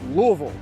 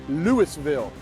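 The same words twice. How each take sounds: First: It is said in the local Kentucky way. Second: It is said in a common non-local way. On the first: This is how people in Kentucky say it. "but we call it Louisville" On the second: This is how people from elsewhere say it. "You may pronounce it as Louisville"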